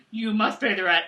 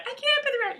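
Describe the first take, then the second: First: Mock villain making a demand; hammed-up landlord villain; melodrama villain. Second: Very high-pitched mock damsel; squeaky, pleading damsel in distress; melodrama damsel. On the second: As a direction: play a helpless heroine up in falsetto. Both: Melodrama villain and damsel skit.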